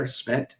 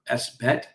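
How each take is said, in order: First: "sbet" said as one word; one-syllable "sbet". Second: "S bet" said as the letter S plus "bet"; spelled out. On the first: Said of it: "Don't you like that better". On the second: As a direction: say "S bet" as two parts. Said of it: "or as I like to call it". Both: Shown as a demonstration.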